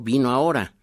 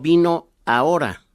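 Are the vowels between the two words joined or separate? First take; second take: joined; separate. First: The final o glides into the initial a. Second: The final o and initial a stay separate. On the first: The speaker calls it right. "como si fuera en vez de O una U" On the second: The speaker calls it wrong. "yo no digo"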